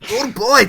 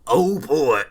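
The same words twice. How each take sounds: First: It is said in a different put-on voice. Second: It is said in Chest Hair McTruck Sweat's voice.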